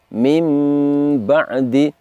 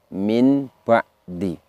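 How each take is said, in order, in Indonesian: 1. Bunyi sengau sebelum b terdengar seperti m. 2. Bunyi sengau sebelum b terdengar seperti n. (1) "Contohnya adalah mim ba'di" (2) "tertulisnya min ba'di"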